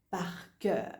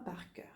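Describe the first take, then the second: First: Said in the usual way. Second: Par cœur whispered, much softer, unvoiced. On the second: Shown as a demonstration. Teacher repeating the phrase to student in a whisper.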